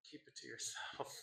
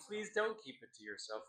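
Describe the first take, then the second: First: Hushed aside. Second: Said in the usual way. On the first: Real, not acted. Host to audience on disliked poems, hushed aside. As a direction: drop it right down, as if confidential.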